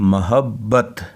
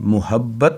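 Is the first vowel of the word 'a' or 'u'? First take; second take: a; u. First: The first syllable has an 'a' vowel. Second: The first syllable has a 'u' vowel. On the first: The speaker calls it right. "मीम के ऊपर ज़बर है" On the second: The speaker calls it wrong. "मुहब्बत नहीं, मीम के ऊपर पेश नहीं"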